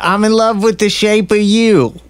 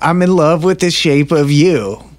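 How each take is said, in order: First: It is said in an attempted Boston accent. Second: It is said in a slow Californian accent.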